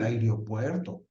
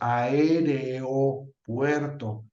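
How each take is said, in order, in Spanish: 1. Las vocales se unen en menos sílabas. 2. Las vocales se separan en sílabas distintas. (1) "Pues más fácil" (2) "con dos hiatos"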